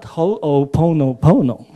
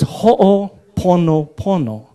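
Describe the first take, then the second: First: The vowels sound English-style, gliding. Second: The vowels sound pure and steady, Hawaiian-style. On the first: The speaker calls it wrong. "not Ho'oponopono. Huh? Doesn't sound right" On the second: The speaker calls it right. "So it's Ho'oponopono"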